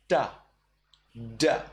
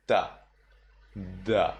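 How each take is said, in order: First: Da with the tongue tip on the roof; sharp da with the tip. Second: Da with the tongue flat on the roof; blunt dental da. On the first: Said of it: "when they are sharp". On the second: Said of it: "Blunt are when you place your tongue". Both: Shown as a demonstration.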